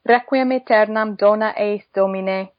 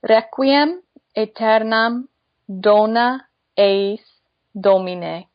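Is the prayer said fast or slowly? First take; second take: fast; slowly. First: It is spoken faster, at normal pace. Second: It is spoken slowly. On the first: "a little bit faster" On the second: "I'm just going to say it slowly one time"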